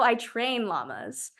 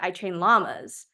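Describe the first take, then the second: First: The stress is on the word train. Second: The stress is on the word llamas.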